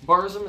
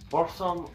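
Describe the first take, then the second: First: It is said in a normal voice. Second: It is said in a deepened, accented voice. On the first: The speaker calls it wrong. "how most people pronounce it" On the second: The speaker calls it right. "with a slight accent and deepening of your voice"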